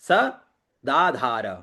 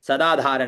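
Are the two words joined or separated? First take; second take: separated; joined. First: The two words are said separately. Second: The two words are run together. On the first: The speaker calls it right. "दो पृथक शब्दों को मिलाकर एक बनाकर न बोले" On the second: The speaker calls it wrong. "सदाधार नहीं होगा ये"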